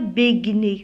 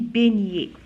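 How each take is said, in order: First: The g and n are said separately. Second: The gn is one soft ny sound. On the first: The speaker calls it wrong. "Je ne dis pas beignet, ça se dit pas" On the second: The speaker calls it right. "on dit beignet"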